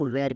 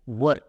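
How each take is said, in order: First: The vowel is a long 'air' sound. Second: The vowel is a short 'er' sound. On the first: The speaker calls it wrong. "Nine out of ten times उसका उच्चार लोग वेयर करेंगे" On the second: The speaker calls it right. "इसका real pronunciation है वर"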